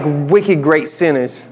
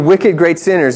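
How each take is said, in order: First: It is said in a Boston accent. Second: It is said in a plain accent. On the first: Wicked means very, so they were very great sinners. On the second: Wicked means evil; they were evil, great sinners.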